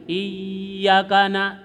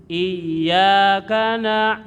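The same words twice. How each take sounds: First: Iyyaka na- chanted with the doubled y too short; wrong reading. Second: Iyyaka na- drawn out slowly with a heavy double y; doubled ya. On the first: Teacher shows students the wrong Iyyaka reading. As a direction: demonstrate the forbidden short Iyyaka. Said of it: "tidak boleh". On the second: Teacher demonstrates tasydid on Iyyaka. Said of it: "di situ pakai tasdid". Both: Shown as a demonstration.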